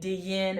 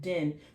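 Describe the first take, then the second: First: A 'y' glide comes between the d and vowel. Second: The vowel follows the d with no glide. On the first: The speaker calls it wrong. "we're not saying din or anything like this" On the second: The speaker calls it right. "Because of this I, I, bitter sound"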